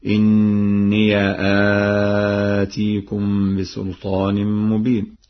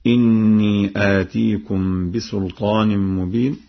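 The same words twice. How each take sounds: First: إني drawn out slowly as inniya; ya with fatha. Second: Said in the usual way. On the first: Shown as a demonstration. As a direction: say إني with a clear open ya, slow. (إني بفتح الياء، بتأنٍّ) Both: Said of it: "بفتح الياء هكذا".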